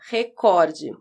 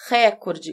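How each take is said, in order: First: The stress is on the second syllable. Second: The stress is on the first syllable. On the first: "vai fazer a pronúncia correta" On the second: "a possibilidade da palavra recorde como proparoxítona"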